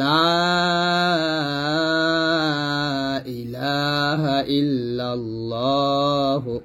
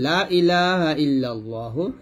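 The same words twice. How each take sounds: First: The first vowel is drawn out long. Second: The first vowel is cut short. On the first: No god exists except God. The speaker calls it right. "এখানে লাতে তিন আলিফ টান হবে।" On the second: Other gods exist besides God. The speaker calls it wrong. "তিন আলিফ টান না দিয়ে"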